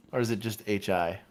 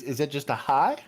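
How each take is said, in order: First: Said in the usual way. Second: HI lifted high in a rising question; excited hi. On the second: Shown as a demonstration. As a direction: ask with an upbeat, raised "hi". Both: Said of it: "it's an excited hi".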